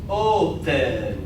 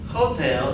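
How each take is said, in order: First: The word begins with no H sound. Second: The word begins with an audible H sound. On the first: The speaker calls it right. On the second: The speaker calls it wrong.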